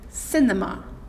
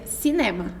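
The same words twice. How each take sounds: First: The word is said with English pronunciation. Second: The word is said with Portuguese pronunciation. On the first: "Em inglês, você vai deixar ele ro rolar" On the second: "Em português, a gente pronuncia cinema"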